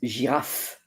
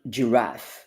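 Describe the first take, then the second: First: The word has a French pronunciation. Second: The word has an English pronunciation. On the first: The speaker calls it right. "But in French, it's giraffe" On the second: The speaker calls it wrong. "and not giraffe"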